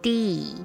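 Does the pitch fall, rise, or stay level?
fall. The pitch falls at the end.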